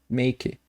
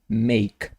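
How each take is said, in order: First: The word ends with an added vowel after k. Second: The word ends on a bare k sound. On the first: The speaker calls it wrong. "Vejo muita gente falando make, make" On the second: The speaker calls it right. "corta esse E aqui do final e é make"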